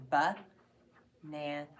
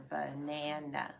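First: "ba-na-na." drawn out slowly, each syllable split apart; slow split "ba-na-na." for the class. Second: "banana." said naturally, only the middle syllable stressed, first and last reduced to uh; everyday "banana." with weak uh syllables at both ends. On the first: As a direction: sound out "ba-na-na." one syllable at a time, very slow. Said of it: "In the first syllable". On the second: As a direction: say "banana." as in normal speech, middle syllable strong. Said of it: "the accent is not in the syllable". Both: Shown as a demonstration.

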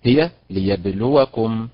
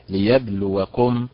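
First: ليبلوكم stressed on the لا syllable; correct stress. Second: ليبلوكم with stress wrongly on final كم; mock the student's ليبلوكم, stress at the end; imitating wrong stress. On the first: Teacher giving correct model, stress on لو of ليبلوكم. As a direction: lean on لو in ليبلوكم, slowly. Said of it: "النبرة على حركة اللام". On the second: Teacher imitating student's mistake, wrong stress on ليبلوكم. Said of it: "أنت نطقتها هكذا". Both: Shown as a demonstration.

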